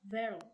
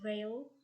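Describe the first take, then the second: First: The word begins with a clear V sound. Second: The word begins with a W-like sound. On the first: The speaker calls it right. "instead to veil" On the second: The speaker calls it wrong. "they pronounce the word veil"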